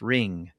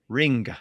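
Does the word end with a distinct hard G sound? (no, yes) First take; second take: no; yes. First: The word ends without a distinct hard G. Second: The word ends with a distinct hard G. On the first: This is how it is said today. "we don't really pronounce it with a very distinct G sound" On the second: This is how it was said in older English. "It was a very distinct g at the end"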